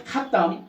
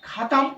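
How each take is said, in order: First: ख़त्म with the त pressed and doubled, khat-tam; corrected pronunciation. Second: ख़त्म as usually said, light unstressed middle consonant; common pronunciation. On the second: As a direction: say ख़त्म without any doubling. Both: Shown as a demonstration. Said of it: "तो इसको पढ़ना चाहिए".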